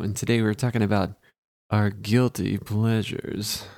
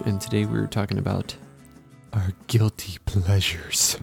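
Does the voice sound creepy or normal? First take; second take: normal; creepy. First: It is said in a less creepy voice. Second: It is said in a creepy voice.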